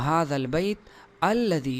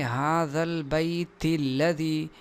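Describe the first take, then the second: First: It stops after bayt; alladhi starts with a glottal stop. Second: Bayt runs straight into alladhi without a glottal stop. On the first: "अगर यहाँ वक़फ़ किया गया" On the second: "अगर यहाँ हम सांस नहीं ले रहे, वक़फ़ नहीं करते"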